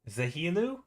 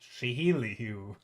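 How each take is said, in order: First: The name starts with a z sound. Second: The name starts with an sh sound. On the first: "I assume it's pronounced like a Z" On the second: "do you pronounce it like Chinese? Is there a she in there?"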